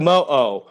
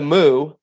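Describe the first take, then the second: First: The name is said as two separate syllables. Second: The name is said as one long syllable. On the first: The speaker calls it right. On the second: The speaker calls it wrong.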